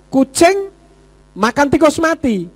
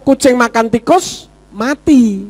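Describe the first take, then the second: First: It is said as one phrase without a pause. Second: There is a pause after the word tikus. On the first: The cat eats a dead rat. "artinya tikus mati dimakan kucing" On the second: The cat eats the rat and then dies. "Yang mati siapa? Kucingnya"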